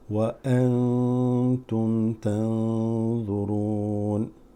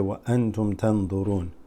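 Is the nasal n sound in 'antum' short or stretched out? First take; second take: stretched; short. First: The nasal n sound is stretched out. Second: The nasal n sound is short and clipped. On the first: The speaker calls it right. "You need to stretch it out" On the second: The speaker calls it wrong. "You wouldn't say"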